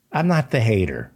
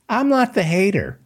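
First: Said in the usual way. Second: NOT hit hard and high: "I'm not the hater"; emphatic denial. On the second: Real, not acted. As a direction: push the word "not" up in indignant protest. Repeated denial, first take.

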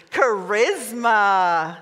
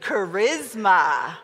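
First: Slow, teasing "Charisma." drawn out; flirty "Charisma." stretched long; kind of flirty. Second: Slow "Charisma." with sass; sassy, slowed "Charisma."; with attitude. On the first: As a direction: purr "Charisma." flirtatiously, very slowly. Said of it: "Say it, like, kind of flirty". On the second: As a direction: drag out "Charisma." with a bit of attitude. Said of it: "say that with a little bit of attitude". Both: Shown as a demonstration.

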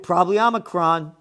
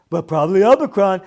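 First: Said in the usual way. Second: Sing-song mock of a kid, louder and faster; mock him like a six-year-old; mocking childish voice. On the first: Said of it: "What are you, six years old". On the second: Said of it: "What are you, six years old talking like this?".

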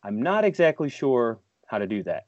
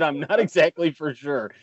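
First: Quoting Ref's hedge. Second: Imitating Ref's hedge. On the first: Retold or imitated. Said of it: "like I always say to Ref". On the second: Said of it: "is when he said".

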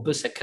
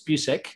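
First: Busek said as "BUSS-ek", short u; corrected pronunciation. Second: Busek said as "BYOO-sek"; alternative pronunciation. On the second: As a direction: say Busek with a "byoo" first syllable. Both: Shown as a demonstration. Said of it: "I think it's pronounced".

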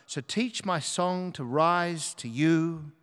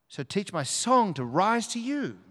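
First: Measured reading with "rise to you" drawn out; slow recitation. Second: Higher, swooping emphasis on "song" and "rise"; lifted recitation. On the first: Preacher previews the song to be sung, slow recitation. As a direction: recite the lyric slowly and deliberately. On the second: Preacher repeats the song line to God, lifted and emphatic. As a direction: lift the lyric upward, pitch well raised. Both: Shown as a demonstration.

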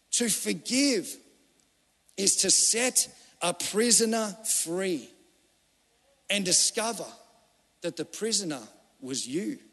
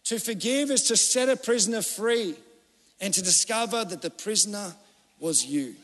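First: A solemn, drawn-out saying; slow, weighty delivery. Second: Said in the usual way. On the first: Acted. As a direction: let "To forgive is to set a prisoner free" sink in phrase by phrase. Repeated quote, first slow take.

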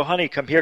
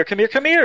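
First: Said in the usual way. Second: A retold call to wife, pitched much higher; mock yell to wife. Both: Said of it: "And I yelled to my wife".

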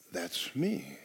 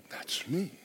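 First: Quiet claim. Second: Whispered, higher, much softer. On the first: Answering the verse as oneself. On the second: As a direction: breathe the words as a private discovery. Repeating the claim, hushed. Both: Acted.

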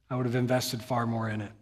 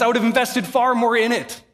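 First: Soft quoted line. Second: "far" pushed higher and louder, impassioned; fervent preaching. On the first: Retold or imitated. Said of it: "imagine with an English accent". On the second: Acted. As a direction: lift "invested far more" into a passionate cry. Preacher repeats quote with fervor.

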